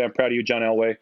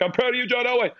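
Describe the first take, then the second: First: Said in the usual way. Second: High, sing-out cheer; imitating co-workers hollering a catchphrase; calling in halls. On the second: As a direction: call it out high like a running joke.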